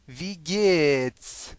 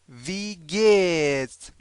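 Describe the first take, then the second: No difference in how they are said.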